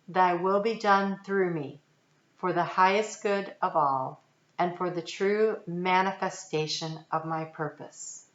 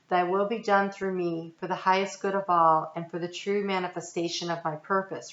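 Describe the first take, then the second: First: It is read really slowly. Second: It is read at a normal pace.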